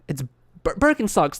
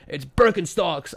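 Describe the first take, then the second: First: It is said hesitantly, with a stumble. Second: It is said firmly and with authority. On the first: The speaker is confused about it. "because I was confused" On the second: The speaker knows exactly what it is. "I wasn't sounding authoritative"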